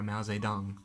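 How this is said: It is said with an English accent. The speaker calls it wrong. "I'm trying to pronounce it in a Western English way"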